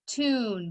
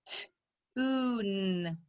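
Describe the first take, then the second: First: Said in the usual way. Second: "T-oo-n" softly split into t, oo, n; tapped-out sounds. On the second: Shown as a demonstration. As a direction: stretch "T-oo-n" into its separate sounds. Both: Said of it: "Tap it out".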